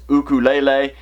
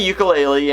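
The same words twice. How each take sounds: First: It is said with the native Hawaiian pronunciation. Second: It is said with a common English pronunciation. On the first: "the correct Hawaiian pronunciation of it is ukulele" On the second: "I did say ukulele"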